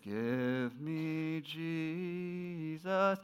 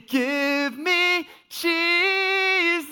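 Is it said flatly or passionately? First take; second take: flatly; passionately. First: It is said flatly, without feeling. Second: It is said with burning passion.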